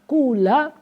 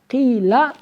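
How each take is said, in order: First: The first vowel is a pure u sound. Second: The first vowel is a pure i sound. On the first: "Boleh dibaca dhammah khalis mukhlason" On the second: "Boleh dibaca kasroh khalis"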